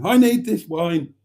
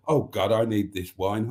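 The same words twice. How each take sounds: First: Higher and louder, begging; louder, emphatic plea. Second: Said in the usual way. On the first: Acted. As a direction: hit it harder the second time. Repeats it, louder.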